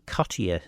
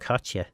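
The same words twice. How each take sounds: First: The name is said in a posh-sounding way. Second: The name is said in a plain, ordinary way. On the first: "if you want to be really posh, um, and mispronouncing it" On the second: "that became Cottier"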